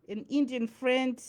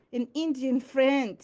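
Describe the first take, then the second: No difference in how they are said.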